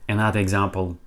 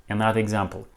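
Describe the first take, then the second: No difference in how they are said.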